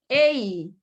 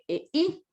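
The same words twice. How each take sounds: First: The two vowels blend into one syllable. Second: The two vowels are split into two syllables. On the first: "Allá dije ei" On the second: "aquí dije ei"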